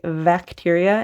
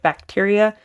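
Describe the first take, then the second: First: The word begins with a V sound. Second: The word begins with a B sound. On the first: The speaker calls it wrong. "I used to mix up V and B. So I would say bacteria" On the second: The speaker calls it right. "instead of bacteria"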